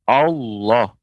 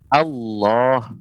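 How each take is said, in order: First: The first vowel is darkened like the heavy l. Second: The first vowel is a plain, light a. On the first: The speaker calls it wrong. "yang keliru pengucapannya" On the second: The speaker calls it right. "yang benar"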